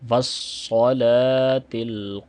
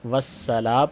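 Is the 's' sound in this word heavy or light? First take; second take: heavy; light. First: The s sound is thick and heavy. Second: The s sound is thin and light. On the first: The speaker calls it right. "स्वाद को यहाँ पे मोटा करेंगे" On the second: The speaker calls it wrong. "वरना वस्सला पढ़ेंगे तो सीन से बदल जाएगा स्वाद और ये भी लहने जली है"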